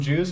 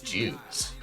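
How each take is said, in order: First: The word is said plainly and neutrally. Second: The word is said in a weird, loaded way. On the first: The speaker calls it right. "you can say like" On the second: The speaker calls it wrong. "but you can't be like"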